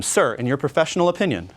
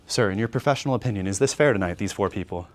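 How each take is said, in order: First: Said in the usual way. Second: Slowed-down dip. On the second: Shown as a demonstration. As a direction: drop the energy to a calm, low ask. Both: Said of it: "and now I slow".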